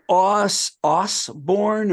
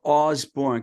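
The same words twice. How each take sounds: First: Osborne said with a hissed S, "OSS-born"; OSS pronunciation. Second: Osborne said with a buzzed Z, "OZ-born"; OZ pronunciation. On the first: Host checking a name's pronunciation, Osborne stretched as OSS-born. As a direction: draw out the OSS in Osborne, slowly. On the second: Host offering the other option, Osborne as OZ-born. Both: Shown as a demonstration. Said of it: "he spells his name funny".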